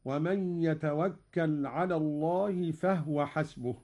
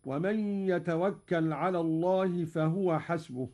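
First: No vowel after the h of "فهو"; silent-vowel ha. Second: U after the h of "فهو"; voweled ha. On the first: Teacher demonstrating Qalun's reading, "فهو" as fahwa. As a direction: recite "فهو" in two syllables, fah-wa. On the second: Teacher quoting the verse before the variant, "فهو" as fahuwa. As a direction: recite "فهو" in three syllables, fa-hu-wa. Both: Shown as a demonstration. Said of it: "أسكن قالون الهاء".

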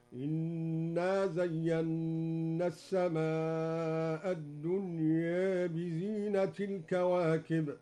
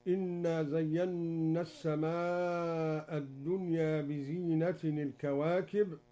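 First: Slow chanted recitation with بزينة said bizinati, no nunation; Duri reading, recited. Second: Said in the usual way. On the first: Shown as a demonstration. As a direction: bizinati joined to al-kawakib. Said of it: "هكذا". (بزينةِ الكواكب بالإضافة بترتيل) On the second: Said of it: "قرأ الدوري بحذف التنوين".

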